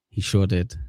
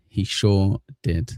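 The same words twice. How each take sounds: First: Said in the usual way. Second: Slow, stretched-out words; drawn-out repeat. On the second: Real, not acted. Streamer repeating an agreement to the chat, drawn out. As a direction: linger on each word, at half pace.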